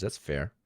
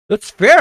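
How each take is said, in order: First: Quiet grudging concession. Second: High, loud, rising; high and loud, like a shout of agreement; loud emphatic concession. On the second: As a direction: blurt it out big. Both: Shown as a demonstration.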